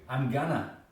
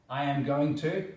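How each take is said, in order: First: The words are run together into a contraction. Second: Each word is said fully and separately. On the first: "slang or colloquial contractions" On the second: "instead of saying going to"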